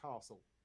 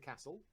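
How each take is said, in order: First: It is said in a Southern English accent. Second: It is said in a Northern English accent. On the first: "people from the south of England would call it a castle" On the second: "So I would say it's a castle"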